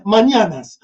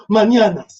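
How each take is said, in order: First: Mañanas said as manana's with a plain n; "mañanas" without the ñ, as "ma-na-nas"; mispronounced Spanish. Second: Mañanas with a proper ñ, "man-ya-nas"; "mañanas" with the Spanish ñ as "ny"; Spanish pronunciation. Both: Real, not acted.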